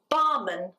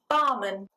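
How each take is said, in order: First: The last syllable has a reduced schwa vowel. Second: The same.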